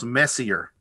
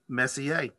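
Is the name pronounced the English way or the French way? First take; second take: English; French. First: The name is said with anglicized Southern sounds. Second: The name is said with French pronunciation. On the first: The speaker calls it wrong. "If you grew up in Arkansas or speak Alabamese" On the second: The speaker calls it right. "learn to French... Francophile it, and it becomes Messier"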